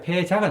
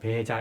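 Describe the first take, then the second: First: It begins with a breathy aspirated p sound. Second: It begins with a soft unaspirated b sound. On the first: This is how the term sometimes appears. "가끔씩 이제 폐자가 나옵니다" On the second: This is one way the term is read aloud. "이건 배자 이렇게 읽어주기도 하는데"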